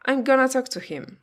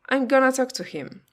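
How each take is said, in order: First: 'Going to' is reduced to 'gonna'. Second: The same.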